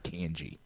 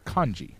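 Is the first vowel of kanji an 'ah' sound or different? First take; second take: different; ah. First: The first vowel is a different, non-'ah' sound. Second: The first vowel is an open 'ah' sound. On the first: The speaker calls it wrong. "actively mispronounce the A" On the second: The speaker calls it right. "the correct pronunciation of the character system in Japanese is kanji"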